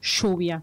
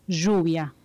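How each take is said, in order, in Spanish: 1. El sonido 'll' es normal, sin zumbido. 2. El sonido 'll' zumba como una abeja. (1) "en Argentina no decimos lluvia" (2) "decimos lluvia, que es como si fuera una abejita"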